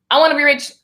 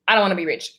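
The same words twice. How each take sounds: First: Lifted pitch, mock-insistent wanting; mock eager wish. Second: Dropped lower, dismissive about-face; mock refusal. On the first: Acting out flip-flop energy, mock eager wish. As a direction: punch it up as the wanting side. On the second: Acting out flip-flop energy, mock low refusal. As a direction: drop down for the contrary side.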